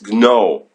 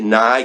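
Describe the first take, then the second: First: The name is said to rhyme with 'go'. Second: The name is said to rhyme with 'eye'. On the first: The speaker calls it right. "but apparently it's No" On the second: The speaker calls it wrong. "I was pronouncing it Nye because I thought that was the pronunciation"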